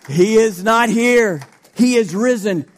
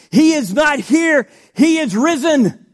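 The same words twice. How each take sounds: First: Slower, weighty proclamation; measured preacher emphasis; slow emphatic reading. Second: Loud, high triumphant proclamation; shouted Easter proclamation; proclaimed shout. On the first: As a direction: lean into each word, unhurried. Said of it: "let's shout for that one". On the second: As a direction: ring it out like good news. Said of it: "Come on, people, let's shout for that one". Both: Shown as a demonstration.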